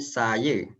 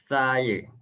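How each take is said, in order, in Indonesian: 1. Awalnya bunyi s desis biasa. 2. Awalnya bunyi mirip th yang cadel. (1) "Dia macam bukan saya" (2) "Dia akan jadi saya"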